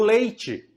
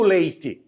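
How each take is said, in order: First: The t sounds like 'ch'. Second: The t sounds like plain 't'. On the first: "Eu digo leite" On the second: "eu não digo leite"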